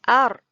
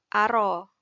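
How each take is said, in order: First: The r ends the syllable with no vowel. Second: An extra vowel follows the r sound. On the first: The speaker calls it right. "Dia akan bunyi ar" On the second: The speaker calls it wrong. "dia tak bunyi ara"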